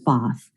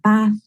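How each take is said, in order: First: The vowel is long and made at the back. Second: The vowel is short and made at the front. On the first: It sounds like a southern English accent. "with a long back vowel in the south of England" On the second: It sounds like a northern English accent. "pronounced with the short front vowel um, in the north of England"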